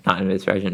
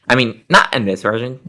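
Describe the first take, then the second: First: "this" stressed, softer, "Not in this version". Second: "not" rising and pushed up, "I mean, not in this version"; stress on not. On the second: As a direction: lean hard on "not", rising tune. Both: Shown as a demonstration.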